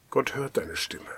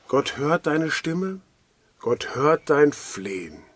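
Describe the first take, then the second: First: Hushed, breathy whispered promise; soft whisper. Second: Slow, deliberate, each phrase weighted; slow emphatic assurance. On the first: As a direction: whisper it like a secret comfort. Preacher repeats promise softly. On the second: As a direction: lay each promise down slowly and firmly. Preacher assures listeners personally. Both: Acted.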